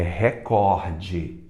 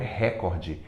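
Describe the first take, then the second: First: The stress is on the middle syllable, cor. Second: The stress is on the first syllable, re. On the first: The speaker calls it right. "A mais forte é o cor" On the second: The speaker calls it wrong. "não é recorde"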